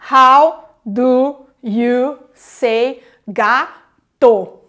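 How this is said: Every syllable gets roughly equal weight.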